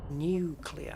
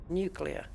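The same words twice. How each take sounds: First: Nuclear said as "noo-klee-er", with no y after the n; Nuclear pronounced noo-klee-er, the American way. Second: Nuclear said as "nyoo-klee-uh", with a y-glide after the n; nuclear pronounced nyoo-klee-uh, the British way. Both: Shown as a demonstration. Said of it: "Not new".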